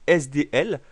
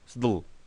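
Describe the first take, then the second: First: Each letter is named separately. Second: The letters are run together as one word.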